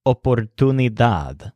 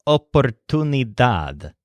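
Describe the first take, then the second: First: Oportunidad in clean Spanish vowels, stress on dad, lighter stress on tu; Spanish pronunciation. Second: Oportunidad with dad stressed, tune lightly stressed, said slowly; slow careful oportunidad, lean on dad; stress on the last syllable. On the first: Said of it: "secondary stressed syllable is tune". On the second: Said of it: "has a stress on that last syllable". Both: Shown as a demonstration.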